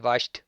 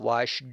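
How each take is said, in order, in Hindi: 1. यह शब्द रोज़मर्रा के अंदाज़ में जल्दी बोला गया है। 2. यह शब्द धीरे और बहुत साफ़ बोला गया है। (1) "वैसे वाश्ड, वाश्ड बोलते हैं" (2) "मैं साफ बोलना चाहता हूँ ताकि आपको समझ आए"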